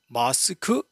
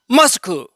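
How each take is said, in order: First: It is said in a Seoul standard accent. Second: It is said in a Gyeongsang dialect accent. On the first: "우리 서울 사람들은 마스크 이렇게 하고 있지요" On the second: "경상도 발음은 마스크, 일본식 발음입니다"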